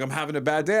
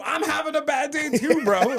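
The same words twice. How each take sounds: First: Said in the usual way. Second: Much higher, indignant comeback; retold exasperated retort. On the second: Answering attacker's excuse, high exasperated retort. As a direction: throw it back in comic outrage.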